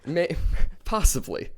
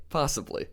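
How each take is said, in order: First: Breaking into a laugh mid-word. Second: Said in the usual way. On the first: Real, not acted. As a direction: laugh through the word possibly. Laughing at partner's joke.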